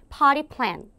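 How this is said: The t is softened, sounding like potty.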